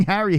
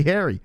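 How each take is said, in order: First: Harry with a short "a" as in "hat"; "Harry" with an open "a"; corrected pronunciation. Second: Harry said as "hairy"; "Harry" with the vowel of "hair"; mimicked pronunciation. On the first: Shown as a demonstration. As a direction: say "Harry" with the "cat" vowel. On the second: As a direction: copy "Harry" with an "air" vowel. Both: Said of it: "you're calling Harry Harry".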